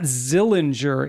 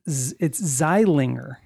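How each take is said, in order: First: The first vowel sounds like the one in 'ill'. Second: The first vowel sounds like the one in 'eye'. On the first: The speaker calls it wrong. "It's not Zillinger" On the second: The speaker calls it right. "It's Zeilinger"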